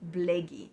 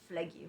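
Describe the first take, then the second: First: The name begins with a B sound. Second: The name begins with an F sound. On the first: This is the form the people used themselves. The speaker calls it right. "the correct sound or pronunciation of our ancestors, ... would have been with a B" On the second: This is the form the Greeks used. The speaker calls it wrong. "people with the sound of F"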